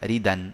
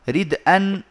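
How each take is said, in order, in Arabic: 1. الدال تتصل بالحركة مباشرة. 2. تأتي همزة بعد صوت الدال.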